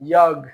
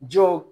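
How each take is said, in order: First: The word begins with a 'y' sound. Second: The word begins with a 'j' sound.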